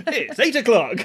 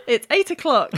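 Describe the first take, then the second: First: Higher, laughing clock announcement; talking alarm clock. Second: Chirpy clock announcement; talking alarm clock. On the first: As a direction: chime the time, laughing. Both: Acted. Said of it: "It's a talking clock".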